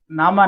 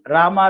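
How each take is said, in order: First: The name begins with an N sound. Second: The name begins with an R sound. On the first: A small child is saying the name. The speaker calls it wrong. "he used to tell Nama" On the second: The name is given in its proper form. The speaker calls it right. "Instead of uh, Rama"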